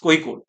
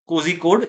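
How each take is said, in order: First: The name begins without a z sound. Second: The name begins with a clear z sound. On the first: The speaker calls it right. "it's koi code" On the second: The speaker calls it wrong. "it's not uh, uh, cozy code"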